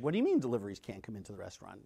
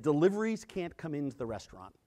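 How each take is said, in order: First: Fast, lower, disbelieving echo; quick stunned echo of the news; incredulous repeat. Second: Said in the usual way. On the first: Retold or imitated. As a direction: rattle it back at him, can't believe it.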